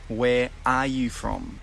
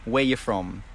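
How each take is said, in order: First: Every word is said fully, including 'are'. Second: The word 'are' is dropped in casual speech. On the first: "The correct way to ask this" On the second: "like a native speaker"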